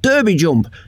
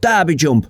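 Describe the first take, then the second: First: Derby is said with an American pronunciation. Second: Derby is said with a British pronunciation. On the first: "if it's an American track, it should be called Derby Jump" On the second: "If it's a British track, it's called Derby Jump"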